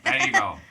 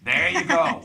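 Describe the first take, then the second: First: It is said in a put-on southern accent. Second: It is said in a plain, everyday accent.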